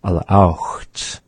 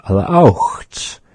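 First: Alaaucht said at normal pace; word demo. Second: Alaaucht drawn out with a lateral start; slow word demo. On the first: Teacher repeating the word alaaucht. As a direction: say Alaaucht once cleanly. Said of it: "aucht is meaning there". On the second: Teacher introducing the word alaaucht. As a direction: stretch alaaucht slowly. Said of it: "Or we might say". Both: Shown as a demonstration.

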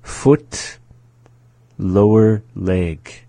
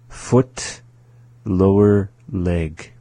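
No difference in how they are said.

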